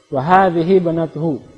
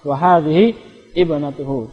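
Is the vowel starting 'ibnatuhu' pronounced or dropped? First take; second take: dropped; pronounced. First: It runs straight on, dropping the starting vowel. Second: It stops, then pronounces the vowel starting ibnatuhu. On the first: "kalau kita baca langsung" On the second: "kecuali kita wakaf"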